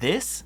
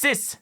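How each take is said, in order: First: It is said with a standard English sound. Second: It is said with a heavy German accent. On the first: "instead of saying this" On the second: "if I really want to sound like a German"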